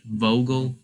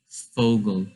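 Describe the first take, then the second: First: The word begins with a V sound. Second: The word begins with an F sound. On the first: The speaker calls it wrong. "you wouldn't say Vogel" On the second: The speaker calls it right. "you say it like sort of as an F instead of a V"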